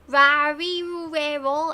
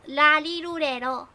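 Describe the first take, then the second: First: The syllables start with an English-style R sound. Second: The syllables start with an L-like sound. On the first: The speaker calls it wrong. "So it's not like rarirurero" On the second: The speaker calls it right. "It's larirurero"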